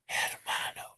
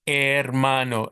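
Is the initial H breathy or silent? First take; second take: breathy; silent. First: It starts with a breathy hissed H. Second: It starts with no H sound. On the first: The speaker calls it wrong. "don't try to be seductive with me and say" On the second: The speaker calls it right. "Just hermano, as if it were written like that without the H"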